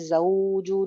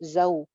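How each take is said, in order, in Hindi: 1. स्वर को खींचकर लंबा बोला गया है। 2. स्वर को जल्दी से काटकर छोटा बोला गया है। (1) "इसको लंबा नहीं करते, ज़ौजू नहीं" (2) "जल्दी से दागी करते हैं"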